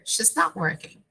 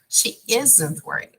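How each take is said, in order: First: The word 'is' is shortened onto 'she'. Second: The word 'not' is shortened onto 'is'. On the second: "even more different"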